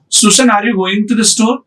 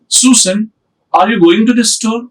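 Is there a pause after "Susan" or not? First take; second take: no pause; pause. First: It runs on with no pause after Susan. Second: There is a pause after Susan.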